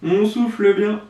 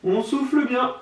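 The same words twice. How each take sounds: First: Loud breathy exhale over words; blowing out hard. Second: Blowing out hard. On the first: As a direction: blow out hard while speaking. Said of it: "Je sais pas si vous m'entendez souffler". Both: Real, not acted.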